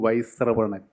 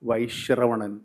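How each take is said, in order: First: The cluster starts with a plain s sound. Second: The cluster starts with an sh sound. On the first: The speaker calls it wrong. "ഞാൻ വീണ്ടും ആവർത്തിച്ചു" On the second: The speaker calls it right. "ഷായാണ് ശ്രായി വരുന്നത്"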